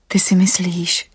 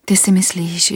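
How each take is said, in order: First: Anastasia's whispered challenge. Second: Said in the usual way. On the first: Acted. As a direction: whisper it, slower.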